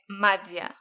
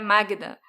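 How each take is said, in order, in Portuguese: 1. O nome é dito sem som de g. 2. O nome é dito com som de g. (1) "é Mádia" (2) "eu falava o nome dela errado"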